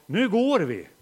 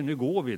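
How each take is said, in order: First: Loud parental command; firm call to go. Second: Said in the usual way. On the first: Retold or imitated. Father tells family at Ströget, loud firm call. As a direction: call the family to leave now. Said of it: "så säger jag". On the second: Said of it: "när jag säger".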